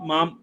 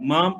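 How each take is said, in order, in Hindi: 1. शब्द का अंत पूरे म व्यंजन से होता है। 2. शब्द का अंत पूरे म व्यंजन से होता है।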